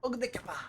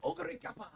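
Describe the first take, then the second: First: "Ogre kappa" with a high, punched "Ogre"; extra emphasis. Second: High, hyped-up anime call; anime announcer hype. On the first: Streamer mimicking the anime's emphasized call. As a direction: lean hard on "Ogre" then "kappa". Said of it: "So much extra emphasis on the kappa". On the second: Gamer imitating the anime's hyped call. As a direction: belt it like an excited anime commentator. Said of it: "They say it just like that". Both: Retold or imitated.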